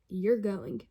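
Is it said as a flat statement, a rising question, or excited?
excited. It is said loudly with excited emphasis. It expresses strong feeling. "whether it was an exclamation point"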